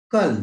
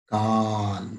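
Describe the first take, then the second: First: "कल" crisp and short, clearly stressed; short vowel demo. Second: "काल" with a long, held aa; long vowel demo. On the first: Teacher asking pupils to watch the sound: "कल" short. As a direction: snap out "कल" with a clipped a. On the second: Teacher contrasting it for pupils: "काल" long. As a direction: draw out the aa of "काल" steadily. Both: Shown as a demonstration. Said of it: "इसका उच्चारण अच्छी तरह से देखिए".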